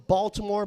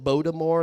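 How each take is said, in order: First: Said in the usual way. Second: "Baltimore" slurred as "Bodamore"; regional Baltimore pronunciation. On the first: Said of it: "but not the hills where they call it". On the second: Shown as a demonstration. Comic describing hill locals, "Baltimore" said the local way. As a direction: soften the middle of "Baltimore" to a d. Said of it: "where they call it Baltimore".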